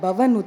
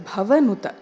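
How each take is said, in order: First: The first consonant is said without aspiration. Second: The first consonant is said with clear aspiration. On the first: The speaker calls it wrong. "but not Bhavanuta" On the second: The speaker calls it right. "make that Bha as pronounced ... it is Bhavanuta"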